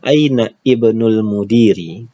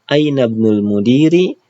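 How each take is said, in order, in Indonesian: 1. Kata-katanya dipisah, vokal 'ibnul' dipertahankan. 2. Kata-katanya disambung, vokal 'ibnul' dihilangkan. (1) "Kalau kita mau satu-satu" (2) "kalau kita mau wasolkan"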